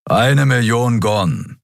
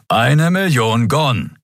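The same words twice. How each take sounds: First: Slow, dry demand for payment; dry grumble. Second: Slow, dry repeat of the price; growled demand. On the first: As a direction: Keru grumbling about his pay, slowly. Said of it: "brummte Keru". (trockenes, langsames Brummen) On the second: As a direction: growl out the sum, slowly. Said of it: "knurrte Keru". (langsames, trockenes Knurren) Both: A narrator's reading.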